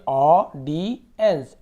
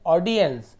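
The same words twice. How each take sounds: First: audience very slow and loud as "aw - di - ens"; loud piece-by-piece sounding-out of audience; broken into syllables. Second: Said in the usual way. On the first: Shown as a demonstration. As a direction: separate all three parts of audience with pauses. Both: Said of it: "तोड़ तोड़ के पढ़िए".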